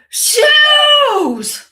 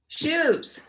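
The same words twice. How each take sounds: First: It is said loudly, almost shouted. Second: It is said at a calmer, quieter level.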